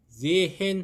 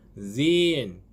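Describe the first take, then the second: First: The middle h is sounded between the vowels. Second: The h is silent and the vowel is long. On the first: The speaker calls it wrong. "하시면 안 됩니다" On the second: The speaker calls it right. "발음도 길게 하셔야 됩니다"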